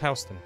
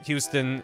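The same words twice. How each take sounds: First: The first syllable sounds like 'how'. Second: The first syllable sounds like 'hue'. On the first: This is how locals say the street name. The speaker calls it right. "So it's Houston" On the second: This is how outsiders say the street name. The speaker calls it wrong. "if you pronounce it Houston, New Yorkers will laugh at you"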